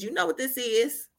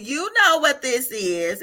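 First: Said in the usual way. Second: Slow, stretched "know what this is", a little raised; knowing emphasis. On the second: Retold or imitated. Speaker repeats what God said about the squeeze, slow and emphatic. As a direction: lean on "know" and draw the line out. God's words repeated after a laugh.

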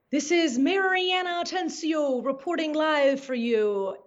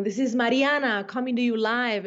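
First: Anglicized reporter sign-on, higher pitch; put-on reporter voice with Mariana Atencio anglicized; anglicized name. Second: Mariana said the native Spanish way; own-name pronunciation. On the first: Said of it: "changing my name". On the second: Retold or imitated. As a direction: say Mariana with its own Spanish sounds, as a reporter sign-on. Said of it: "the very essence of my power".

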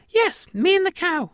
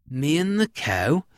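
First: Very high, loud squeaky confirmation; high-pitched mouse, falling at the end; tiny alien mouse. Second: Questioning, rising at the end; slightly raised, doubtful farmer; puzzled farmer. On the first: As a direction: squeak it back firmly like a mouse. Mouse echoes the farmer. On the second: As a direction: ask it in mild disbelief. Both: Acted.

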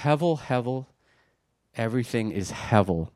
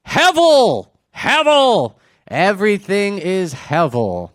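First: Quiet reflective reading. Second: High, loud proclamation that settles down; dramatic cry. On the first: Shown as a demonstration. Preacher showing how differently it reads, quiet reflection. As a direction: say it softly, letting it hang. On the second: Acted. Preacher giving the Hebrew version of the outcry, dramatic shout. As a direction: cry it out high, then slow down.

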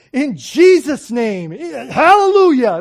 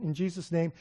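First: Loud, high, drawn-out praise shout; so excited. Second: Said in the usual way. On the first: Retold or imitated. Mother ending the preacher's prayer, exuberant shout. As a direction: imitate an elated churchgoer crying out. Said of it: "Like, she was so excited". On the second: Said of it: "I get done, and of course".

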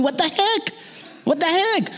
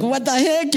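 First: High, baffled cry of what the heck; exasperated disbelief. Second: High baffled what the heck. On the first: Lost tourist ignored by passersby, high exasperated cry. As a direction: throw up your hands in disbelief. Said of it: "And I'm going". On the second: Ladies ignoring him, high baffled what the heck. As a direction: ask it to the sky, bewildered. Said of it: "and I'm like". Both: Retold or imitated.

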